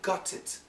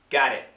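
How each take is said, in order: First: The T is said without a flap. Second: The T is said as a quick flap. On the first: "some people in the U K might say" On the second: "going to use a flat T"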